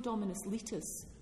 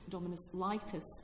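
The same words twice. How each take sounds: First: The vowels have classical Latin values. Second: The vowels have English vowel-shifted values. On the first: "It's no Dominus Litis that lawyers were or are saying" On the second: "that's gone through the great vowel shift"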